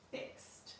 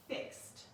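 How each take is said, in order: First: "Fixed" repeated softly, ending as t; ending said as t, softer. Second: "Fixed" ending with a crisp t sound. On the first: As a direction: say "Fixed" again gently, t at the end. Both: Shown as a demonstration. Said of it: "So watch as I show you".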